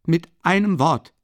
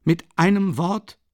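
First: Louder, higher, falling firmly on einem; emphatic repeat. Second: Louder, higher, rising on einem; loud and emphatic. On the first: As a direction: nail einem down and close it. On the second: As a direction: stress einem and leave it hanging. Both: Acted. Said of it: "sagte er laut und nachdrücklich".

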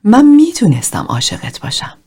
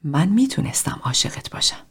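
First: Higher, louder take of «من میتونستم عاشقت باشم»; emphatic second try of the line; stronger repetition. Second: Quiet, tender take of «من میتونستم عاشقت باشم»; hushed first try of the line; soft repetition. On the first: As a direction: push it out with more feeling this time. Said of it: "تکرار کرد". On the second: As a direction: say it softly, holding back. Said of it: "تکرارش کن". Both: A narrator's reading.

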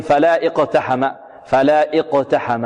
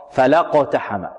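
First: Slow "فلا اقتحم" split as fala, then iqtaham; wrongly sounded hamza. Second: "فلقتحم" in one piece, la straight into qaf; hamza dropped. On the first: Teacher shows students the mistake, "فلا اقتحم" with hamza kept. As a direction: break "فلا اقتحم" with a glottal "i" after la. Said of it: "من إثباتها وصلا، فلا يقول". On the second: Teacher corrects the mistake, joined "فلقتحم" without hamza. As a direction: say "فلقتحم" as fa-laq-ta-ham, no "i". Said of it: "لا، خطأ". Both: Shown as a demonstration.

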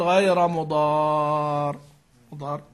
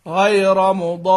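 First: مضار ending with a light, unheld ra; wrong light ending. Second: غير مضار slow, the doubled ra held firmly at the stop; held shadda. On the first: Teacher showing the wrong, light ra in مضار at the stop. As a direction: drop the doubling on مضار as the wrong way. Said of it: "ما ينفع تقول". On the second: Teacher showing how مضار must sound doubled when stopping. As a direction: press and hold the doubled ra in مضار. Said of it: "لابد أن يشعر السامع أنك شددت". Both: Shown as a demonstration.

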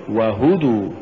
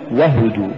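First: "وهدوا" with each syllable given its full vowel; the model reading of وهدوا, unhurried; correct وهدوا. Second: "وهدوا" run together, short and quick; the faulty reading of وهدوا, hurried through; mispronounced وهدوا. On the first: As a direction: say وهدوا carefully, wa-hudu, evenly spaced. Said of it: "قل". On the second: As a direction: say وهدوا the wrong way, vowels clipped short. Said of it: "ولا تقل". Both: Shown as a demonstration.

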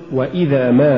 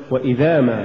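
First: وإذا, then a rising stressed ما; separate words. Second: وإذا ما fused, falling; weak ما tacked onto وإذا; words run together. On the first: Teacher models correct recitation, وإذا apart from rising ما. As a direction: give ما its own weight after وإذا. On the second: Teacher shows the mistake, وإذا ما run together. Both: Shown as a demonstration. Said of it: "ولا تقل".

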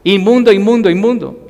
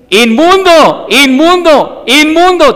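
First: Inmundo called out with less force, fading at the end; milder repeated cry. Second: Much higher, louder, slow drawn-out wail of inmundo; leper's warning cry. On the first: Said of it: "Ellos tenían que gritar". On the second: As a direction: cry out like a siren to warn people away. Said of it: "ellos tenían que gritar". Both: Retold or imitated.

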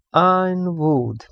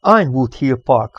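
First: "Ironwood" slow and high, syllable by syllable. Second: Said in the usual way. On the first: A narrator's reading. Alex ponders her father's clue, sounding out "Ironwood" slowly. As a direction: draw out each syllable of "Ironwood". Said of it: "szótagolva".

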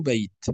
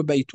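First: "بيت" as "bayt", ending on t; pausal sukun. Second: "بيت" as "baytun"; tanween kept. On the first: Teacher showing how Arabs stop, pausal sukun. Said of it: "وإنما نقول بيت". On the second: Teacher showing what not to say when stopping, tanween kept. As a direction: sound the -un ending on "بيت". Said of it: "لا نقول بيت". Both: Shown as a demonstration.

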